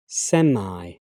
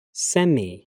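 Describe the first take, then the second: First: "semi" ending in "eye": SEM-eye; American pronunciation. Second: "semi" ending in "ee": SEM-ee; British pronunciation. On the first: Teacher trying the American form, American pronunciation. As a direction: end "semi" with an "eye" sound. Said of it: "my American pronunciation". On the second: Teacher reading the British form of each pair, British pronunciation. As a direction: end "semi" with an "ee" sound. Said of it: "I'm a British English native speaker". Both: Shown as a demonstration.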